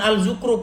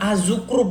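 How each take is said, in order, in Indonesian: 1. Artikelnya diucapkan 'al', dengan l yang jelas. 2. Artikelnya diucapkan 'az', menyatu dengan z. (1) "bukan Al-Zukrub" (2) "Az-Zukrub, bukan Al-Zukrub"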